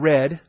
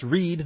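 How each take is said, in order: First: The vowel is short, like in 'red'. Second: The vowel is long, like in 'reed'. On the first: The reading happened in the past. The speaker calls it wrong. "not read" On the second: The reading is happening now. The speaker calls it right. "what they are presently reading, okay? And that's read"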